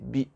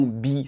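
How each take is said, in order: First: The vowel is kept short. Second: The vowel is held long. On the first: The speaker calls it right. "c'est bi" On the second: The speaker calls it wrong. "C'est pas un long bi"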